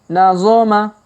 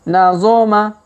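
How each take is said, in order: No difference in how they are said.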